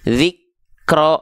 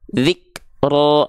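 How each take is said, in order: First: The two syllables run together without a break. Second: A breathy break separates the first syllable from the second. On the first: The speaker calls it wrong. "nah jangan gitu" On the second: The speaker calls it right. "nah, gitu"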